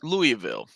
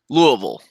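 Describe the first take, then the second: First: It is said the way outsiders say it. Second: It is said the local Kentucky way. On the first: "If you're from outside of Kentucky, it is" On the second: "if you live in Kentucky, the correct pronunciation of that word is"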